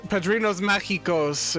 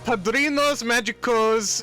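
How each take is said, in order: First: The g in magicos sounds like an h. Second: The g in magicos is a hard g. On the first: The speaker calls it right. "Gi and G are pronounced like Hi and He" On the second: The speaker calls it wrong. "I'm gonna try and pronounce this"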